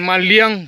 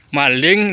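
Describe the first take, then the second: First: The word ends with an 'iang' sound. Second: The word ends with an 'ing' sound. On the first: This is the Minang form. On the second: This is the standard Indonesian form.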